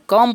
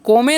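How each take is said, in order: First: It is said as one syllable, kum. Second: It is said as two syllables, ko-meh. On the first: The speaker calls it right. "क्या पढ़ेंगे कम पढ़ेंगे" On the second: The speaker calls it wrong. "इसे हम कोमे नहीं पढ़ेंगे"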